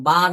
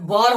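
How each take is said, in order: First: বার said with an open aa; corrected vowel. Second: বর said with an o-like vowel; wrong vowel. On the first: Teacher corrects students' reading, open aa in বার. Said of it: "বার হবে". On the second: Teacher shows students the mistake, wrong vowel in বর. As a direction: say বর, rounded vowel instead of long a. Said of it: "বর হবে না". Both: Shown as a demonstration.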